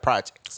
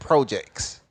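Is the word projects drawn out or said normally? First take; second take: normal; drawn out. First: The word is said at a normal length. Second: The word is stretched out and drawn long. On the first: The speaker calls it right. "instead of projects" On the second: The speaker calls it wrong. "I hate how you say it"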